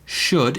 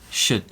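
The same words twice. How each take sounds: First: The vowel is full and rounded. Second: The vowel is flat and weak. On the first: The speaker calls it wrong. "It wasn't should" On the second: The speaker calls it right. "it was should"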